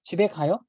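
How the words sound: The pitch rises at the end. It asks whether someone is going home. "it can be also used in the question mark"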